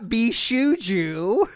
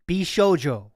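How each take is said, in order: First: The middle and last vowels sound like u. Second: The middle and last vowels sound like o. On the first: The speaker calls it wrong. "It's not Bishuju" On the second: The speaker calls it right. "In my opinion, it's Bishojo"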